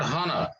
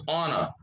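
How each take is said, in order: First: The word begins with a sounded H. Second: The word begins with a vowel sound. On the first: The speaker calls it wrong. "not honor" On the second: The speaker calls it right. "we have to omit this uh, word letter H"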